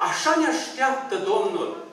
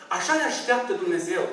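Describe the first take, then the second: First: Slow emphatic. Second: Said in the usual way. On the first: Real, not acted.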